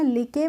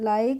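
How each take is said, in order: First: The vowel is a short 'i' with final 'e'. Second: The vowel is an 'ai' sound like eye. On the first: The speaker calls it wrong. "लिके पढ़ते हैं? नहीं" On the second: The speaker calls it right. "इसको पढ़ते हैं हम लाइक"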